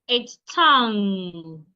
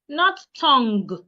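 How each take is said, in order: First: No hard G sound is heard at the end. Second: A hard G sound is heard at the end. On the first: The speaker calls it right. "The G should not be heard" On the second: The speaker calls it wrong.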